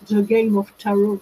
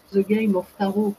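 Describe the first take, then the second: First: English title said in a strong French accent, a bit louder; self-mocking French-accented English title. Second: Said in the usual way. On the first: Shown as a demonstration. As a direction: give the English book title with your own French accent, laughing at yourself. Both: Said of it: "avec mon accent subi".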